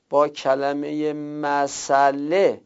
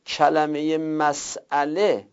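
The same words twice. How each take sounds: First: Slowly, مسئله joined as "ma-saa-le"; مسئله drawn out in the eased form, without hamza; hamza dropped. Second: Slowly, مسئله split as "mas-'ale"; مسئله drawn out in its full form with hamza; hamza pronounced. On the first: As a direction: stretch مسئله out with no glottal stop. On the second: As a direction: say مسئله with a clear glottal stop after the s. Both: Shown as a demonstration. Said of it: "اینجا همزه رو دیگه نمیگید".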